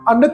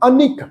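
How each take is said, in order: First: No 'i' vowel is sounded after the n. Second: An 'i' vowel is sounded after the n. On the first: The speaker calls it wrong. "ਇਹਦਾ ਪਾਠ ਅਨਕ ਨਹੀਂ ਪੜਨਾ" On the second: The speaker calls it right. "ਅਨਿਕ ਨੰਨੇ ਨੂੰ ਸਿਆਰਿਆ"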